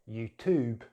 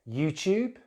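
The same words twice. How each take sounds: First: It is said with an American accent. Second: It is said with a British accent. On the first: "then American English" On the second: "in British English"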